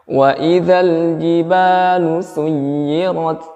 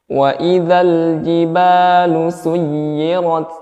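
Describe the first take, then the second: Both takes have the same delivery.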